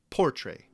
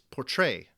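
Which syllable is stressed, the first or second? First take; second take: first; second. First: The stress is on the first syllable. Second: The stress is on the second syllable. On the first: The speaker calls it wrong. "not portray" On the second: The speaker calls it right. "the first syllable, por, is unstressed, while the second syllable, tray, is stressed"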